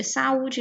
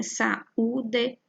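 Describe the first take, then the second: First: Said in the usual way. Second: Saúde as sa, ú, de, each syllable apart; split into syllables. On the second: Shown as a demonstration. Teacher showing a hiato in separate syllables, split into syllables. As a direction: say Saúde in three separate beats. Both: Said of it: "porque ficam em sílabas separadas".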